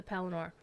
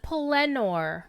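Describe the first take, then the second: First: Said in the usual way. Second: Pelennor with the stress on its second syllable, LEN. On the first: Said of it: "Except he pronounced it Pelennor". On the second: Retold or imitated. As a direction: hit the middle of Pelennor, pe-LEN-nor. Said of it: "emphasis on the second syllable".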